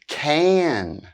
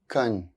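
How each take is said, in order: First: The word is said fully with its full vowel. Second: The word is reduced with a weak vowel. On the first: "here are the strong and weak forms of auxiliary verbs" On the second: "then their weak forms"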